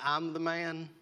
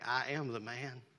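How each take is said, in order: First: It is said in a proud, boastful tone. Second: It is said in a humble, remorseful tone. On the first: The speaker is bragging about being in control. The speaker calls it wrong. "like we got this" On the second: The speaker is confessing personal guilt. The speaker calls it right. "I'm the one that's sinning"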